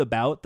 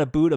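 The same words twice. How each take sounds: First: Said in the usual way. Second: "about" said as "aboot"; Canadian "aboot". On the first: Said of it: "he doesn't say ab-, about, though". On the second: Shown as a demonstration. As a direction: exaggerate the Canadian vowel in "about" to oo. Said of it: "He doesn't do that about".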